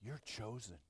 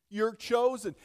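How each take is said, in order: First: Soft, low, almost to oneself; hushed assurance. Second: Loud, raised preacher's declaration; forceful proclamation. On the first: Pastor telling listeners what the passage says, hushed assurance. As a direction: let it drop to a hush. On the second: Pastor urging believers to hear him, forceful proclamation. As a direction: proclaim it high and strong. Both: Real, not acted. Same words hushed, then proclaimed.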